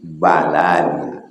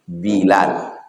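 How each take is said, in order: First: The first vowel is an a sound. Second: The first vowel is an i sound. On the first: "Bi fathil ba" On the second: "Bisa juga dibaca kasrah"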